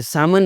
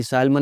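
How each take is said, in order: First: "सैमन" with no L sound; silent L. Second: "सैल्मन" with the L voiced; L sounded. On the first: Teacher showing learners the salmon fish, silent L. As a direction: say "सैमन", dropping the L. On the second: Teacher showing learners the mistake, L sounded. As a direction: say "सैल्मन", L before the M. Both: Shown as a demonstration. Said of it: "सैल्मन मछली नहीं होती".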